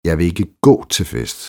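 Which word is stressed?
gå. The stress falls on the word gå. The speaker won't walk but could go another way. "Men vi kan jo cykle derhen"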